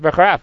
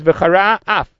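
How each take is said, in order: First: The words run together quickly as one word. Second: There is a short pause between the words. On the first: The speaker calls it wrong. "if you just say it quickly, it's v'charaf. It becomes like one word" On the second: The speaker calls it right. "You have to say v'charas and have a pause and then say af"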